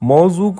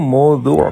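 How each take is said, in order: First: It uses plain sounds without the throaty ending. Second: It uses a heavy consonant and throaty ending.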